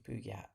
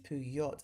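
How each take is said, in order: First: The ending does not sound like yacht. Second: The ending sounds like the word yacht. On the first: The speaker calls it right. "Dan said that it's actually Puyat" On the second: The speaker calls it wrong. "as in Y A C T, now which I call a yacht"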